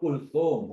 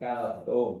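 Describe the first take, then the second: First: The first vowel of the name is 'u'. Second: The first vowel of the name is 'a'. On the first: The speaker calls it right. "Yang betul Kulthum" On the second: The speaker calls it wrong. "bukan Kalthum"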